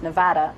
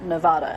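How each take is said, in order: First: It is said with the American pronunciation. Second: It is said with a non-American pronunciation. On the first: The speaker calls it right. "my American friends would say it's Nevada" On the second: The speaker calls it wrong. "not Nevada"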